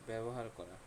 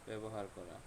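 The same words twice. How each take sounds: Both takes have the same delivery.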